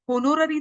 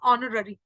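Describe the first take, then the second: First: होनोररी with the h sounded, ho-no-ra-ri; wrong pronunciation. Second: Honorary with a silent h, on-o-ra-ri; correct pronunciation. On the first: Teacher showing students the wrong way, h sounded. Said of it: "आप इसको होनोररी तो नहीं बोलोगे". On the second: Teacher giving students the right form, silent h. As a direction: drop the h in honorary, start on the vowel. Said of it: "वो गलत हो जाएगी। It is honorary". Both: Shown as a demonstration.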